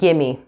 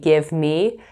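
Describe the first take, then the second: First: The words blend into one reduced word, gimme. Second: Both words are said fully and separately. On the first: "you'll hear gimme" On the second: "instead of saying give me"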